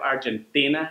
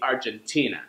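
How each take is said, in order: First: The T is unaspirated, with the tongue further forward. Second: The T is aspirated, with a puff of air. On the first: "with a Spanish accent" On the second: "she'll use an American pronunciation"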